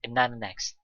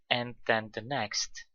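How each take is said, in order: First: The words before next blur together into nana. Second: Each word before next is said separately and fully. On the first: "And then and the are pronounced together as nana" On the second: "he doesn't say and then the next"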